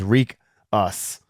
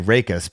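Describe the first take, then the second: First: The first syllable sounds like 'reek'. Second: The first syllable sounds like 'ray'. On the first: The speaker calls it right. "the pronunciation for his name, which is Reek Us" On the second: The speaker calls it wrong. "I was going to say Rakus because I didn't want to say Reek"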